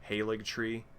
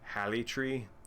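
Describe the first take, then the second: First: The middle consonant is a hard g sound. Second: The middle consonant is a y sound.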